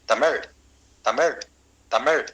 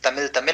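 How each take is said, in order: First: The word ends with a retroflex zh-like sound. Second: The word ends with a plain l sound. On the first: The speaker calls it right. "शुद्ध क्या है?" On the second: The speaker calls it wrong. "हम गलत बोलते हैं"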